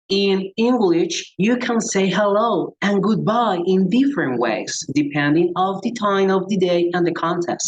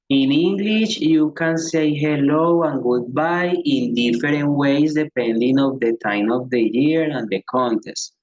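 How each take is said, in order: First: It is said with an American accent. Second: It is said with a Colombian accent.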